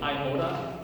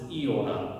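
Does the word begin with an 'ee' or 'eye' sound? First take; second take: eye; ee. First: The first vowel sounds like 'eye'. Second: The first vowel sounds like 'ee'. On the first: "you've heard this before stated iota" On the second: "iota with an E sound"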